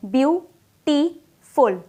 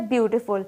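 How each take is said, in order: First: ब्यूटीफुल drawn out slowly, each of its three syllables separate; ब्यूटीफुल split into three slow syllables so the class can count them; stretched into syllables. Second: Said in the usual way. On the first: Shown as a demonstration. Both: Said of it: "यहाँ पर three syllable है".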